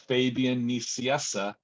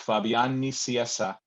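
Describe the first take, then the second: First: The name is pronounced with English sounds. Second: The name is pronounced with Spanish sounds. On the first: "in English, it's" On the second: "En español es"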